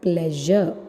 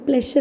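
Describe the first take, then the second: First: The middle consonant is a buzzing zh sound. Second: The middle consonant is a hissing sh sound. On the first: The speaker calls it right. "p plus l plus a plus j plus a" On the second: The speaker calls it wrong. "നമ്മൾ pleasure എന്നാ പറയാ"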